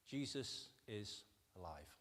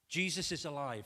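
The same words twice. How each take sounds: First: Jesus is alive, said slowly and softer, each word weighed; slow emphatic statement. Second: Jesus is alive, proclaimed louder with stress on Jesus; loud proclamation. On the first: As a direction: lay it down gently and slowly, Jesus first. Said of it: "if you only take one point". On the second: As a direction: announce it boldly, hitting Jesus. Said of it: "this passage". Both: Shown as a demonstration.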